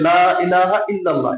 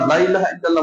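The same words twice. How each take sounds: First: The vowel of 'la' is drawn out long. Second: The vowel of 'la' is clipped short. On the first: It means there is no god but Allah. The speaker calls it right. "Minimum এক আলিফ তো টানতে হবে। ... এভাবে তো বলতে হবে।" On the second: It comes out as if there is a god besides Allah. The speaker calls it wrong. "তাহলে তো এটা জিকিরের সাথে ফাজলামি"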